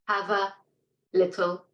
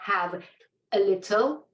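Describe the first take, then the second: First: The schwa is joined smoothly onto the 'v'. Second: The schwa is said apart from the 'v'. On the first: The speaker calls it right. "connect that little uh, schwa sound to the word before it" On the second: The speaker calls it wrong. "not have a little, ... it's more difficult to hear"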